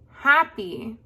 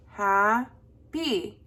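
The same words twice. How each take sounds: First: Said in the usual way. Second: Happy split as HA, pause, PY; happy pulled apart syllable by syllable; broken into syllables. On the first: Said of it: "The next one is". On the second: Shown as a demonstration. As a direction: say happy slowly in two separate beats. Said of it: "break up the word".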